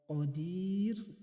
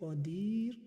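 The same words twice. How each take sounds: First: The long vowel is held for four counts. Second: The long vowel is held for two counts.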